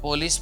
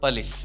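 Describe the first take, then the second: First: The first vowel is a full 'o' sound. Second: The first vowel is short and reduced. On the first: The speaker calls it wrong. "It is not પોલીસ" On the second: The speaker calls it right. "But it is પલીસ"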